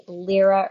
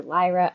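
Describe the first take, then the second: First: First syllable of "Lyra" like the start of "lyrical"; "Lyra" rhyming roughly with "mirror"; Lyra as LEER-uh. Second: First syllable of "Lyra" like "lie"; "Lyra" pronounced LIE-ruh. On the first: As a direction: say "Lyra" with a short ee sound, LEER-uh. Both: Shown as a demonstration. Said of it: "not sure which way to pronounce it".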